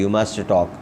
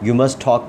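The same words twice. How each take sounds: First: Both t sounds are pronounced separately. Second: The two t sounds merge into one. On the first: The speaker calls it wrong. "You must talk ऐसे नहीं" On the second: The speaker calls it right. "इन दोनों टी को एक कर देंगे"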